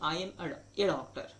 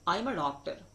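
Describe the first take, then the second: First: The article a is a full 'ay' sound. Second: The article a is a short 'uh' sound. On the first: "बोलने के लिए ये भी बोलते हैं" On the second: "अगर बीच में आए ना तो उसको अ पढ़िए"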